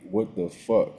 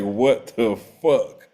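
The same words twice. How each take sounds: First: Said in the usual way. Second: "what the fuck" drawn out slowly, each word leaned on; slow, incredulous "what the fuck", every word stretched; exasperated emphasis. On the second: Real, not acted. Exasperated repeat of the same question.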